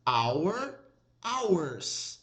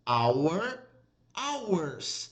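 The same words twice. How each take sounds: The two takes are said the same way.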